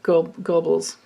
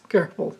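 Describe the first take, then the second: First: The first syllable sounds like 'go'. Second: The first syllable sounds like 'ger'. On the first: The speaker calls it wrong. "it looks like Go- Goebbels" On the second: The speaker calls it right. "you pronounce it like gerbils"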